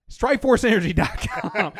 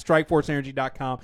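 First: Giggling through the URL; laughing while reading the ad. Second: Said in the usual way. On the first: Real, not acted.

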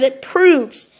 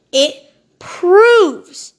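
First: "proves" punched louder and drawn out; stress on proves. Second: "proves" stretched long, louder and higher, falling at the end; heavy stress on proves. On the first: Urging listeners to watch the documentary, slow stress on "proves". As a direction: lean on "proves", slowly. Repeats phrase for emphasis. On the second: Driving the documentary point home, loud drawn-out "proves". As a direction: belt out a long, swooping "proves". Repeats phrase, more emphatically. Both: Real, not acted.

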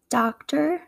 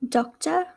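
First: American "doctor" ending in er; American accent, open ah and sounded r in "doctor". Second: British "doctor" ending in uh; English accent, rounded o and no r in "doctor". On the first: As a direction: say "doctor" the American way, "dahk-ter". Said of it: "how I would say it". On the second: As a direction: say "doctor" as in England, "dok-tuh". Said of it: "pronunciation would be in England". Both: Shown as a demonstration.

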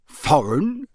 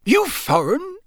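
First: Puzzled echo with rising end. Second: High character voice, sharply rising question; Mister Roberts. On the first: A narrator's reading. Mister Weasley echoing the campsite keeper, puzzled. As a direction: repeat the word as a baffled question. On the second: Acted. Campsite keeper quizzing an odd customer, high-pitched. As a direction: ask suspiciously, pitched high.

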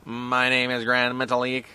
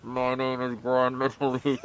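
First: Grand Metalik voice. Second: Slow, muffled masked wrestler voice; Grand Metalik voice. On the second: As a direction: speak slowly as if through a mask. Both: Retold or imitated. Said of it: "What does Grand Metalik sound like again?".

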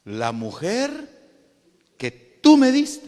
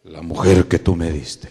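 First: "tú" punched high and very loud; stress on tú. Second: Low, booming Adam voice; loud, deep accusing answer; Adam answering God. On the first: Adam puts the blame on God, "tú" high and loud. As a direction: hit "tú" hard, pitch leaping up to accuse. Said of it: "le echó la culpa a Dios". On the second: Adam blames the woman to God, low and loud. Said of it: "¿Pero qué le dijo?". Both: Acted.

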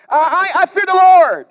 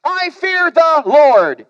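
First: Louder, proud proclamation; emphatic boast. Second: Drawn-out self-assured declaration; slow pious boast. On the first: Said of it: "Jonah answers theologically". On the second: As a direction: say it slowly, full of pride. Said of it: "he says". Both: Acted.

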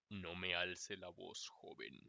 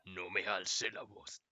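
First: Grave, lento y más suave, como profe severo. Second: Grave y lento, con autoridad de profe; profe severo. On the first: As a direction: corrige al alumno con autoridad seria. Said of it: "decirle como". (el futuro profe al alumno, grave y lento) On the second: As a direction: dilo despacio como profe serio. (repite la frase del profe, grave y lento) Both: Pretend.

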